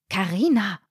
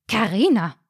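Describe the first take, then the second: First: Mildly gasped name in dismay; a touch of a shocked gasp; gasped reproach. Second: Mildly stern reprimand; ringing out the name in reproach. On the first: Mother to daughter over the schnitzel order, lightly gasped. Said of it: "keuchte ihre Mutter". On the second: Mother reprimanding daughter in the inn, mildly stern. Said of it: "tönte die Mutter streng". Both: A narrator's reading.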